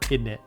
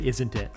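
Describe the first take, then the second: First: It is squeezed into the short form 'innit'. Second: It is said in full as 'isn't it'. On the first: "British way of saying isn't it" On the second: "I would say isn't it"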